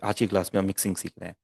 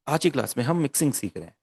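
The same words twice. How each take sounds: First: The sentence is said in a plain, normal way. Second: The sentence is said in a more expressive way. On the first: "ये एक expression है जो मैं normal" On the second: "अब ये different expression है"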